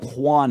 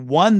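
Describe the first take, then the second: First: The word sounds like the name Juan. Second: The word sounds like the number one. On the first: The speaker calls it wrong. "You don't Juan a game" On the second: The speaker calls it right. "It's one, like the number one, like you won the game"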